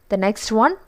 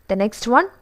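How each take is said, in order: No difference in how they are said.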